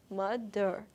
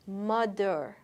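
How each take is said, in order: First: "mother" said as two clear beats, mud-ther; split into syllables. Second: Said in the usual way. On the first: Shown as a demonstration. Teacher showing students "mother" in two stretches. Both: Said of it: "we have to say it in two stretches".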